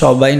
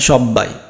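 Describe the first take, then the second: First: The b sound is short and single. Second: The b sound is doubled and held longer. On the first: The speaker calls it wrong. "এই সবাই না" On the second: The speaker calls it right. "না সব্বাই"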